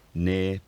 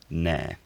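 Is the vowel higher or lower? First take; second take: higher; lower. First: The vowel is higher. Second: The vowel is lower. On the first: This is the present-day pronunciation. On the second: This is the hypothetical shifted pronunciation.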